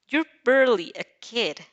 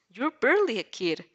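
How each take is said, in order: First: Put-on "You're barely a kid" with one word leaned on, louder; emphasis on the repeat. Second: Said in the usual way. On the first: The man repeating himself to the girl, with emphasis. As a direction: press the word barely as he says it twice. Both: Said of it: "he emphasized the word in this time".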